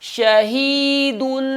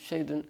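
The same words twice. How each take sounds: First: The word is said with force and strength. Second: The word is said weakly, without force. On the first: The speaker calls it right. "जोर लगा के कुव्वत से पढ़ना है" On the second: The speaker calls it wrong. "ऐसे नहीं"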